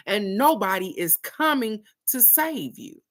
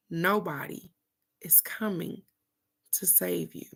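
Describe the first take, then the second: First: Higher-pitched, emphatic retold scolding; stern cousin. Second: Soft, spaced out phrase by phrase; hushed repetition. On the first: Cousin to three-year-old crying on toilet, emphatic scolding. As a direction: drive it home as the lecturing cousin. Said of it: "this is her talking to a three-year-old". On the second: Retold or imitated. Speaker repeating cousin's lesson to viewers, hushed and deliberate. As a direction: let it sink in quietly, with pauses.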